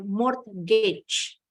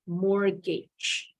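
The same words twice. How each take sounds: First: Mortgage said MORT-gij with the T sounded; wrong way: the T in mortgage said clearly; mortgage with the T pronounced. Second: Mortgage said MOR-gij, T silent; English Mortgage, first T dropped. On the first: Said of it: "Bacanya bukan". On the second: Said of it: "Huruf T-nya silent". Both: Shown as a demonstration.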